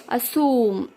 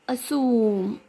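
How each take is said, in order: No difference in how they are said.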